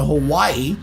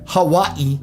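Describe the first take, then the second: First: It is said with an everyday English pronunciation. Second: It is said with a native Hawaiian-style pronunciation. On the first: The speaker calls it wrong. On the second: The speaker calls it right.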